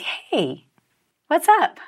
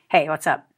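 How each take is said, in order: First: The greeting is said in a warm, affectionate way. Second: The greeting is said in a flat, plain way.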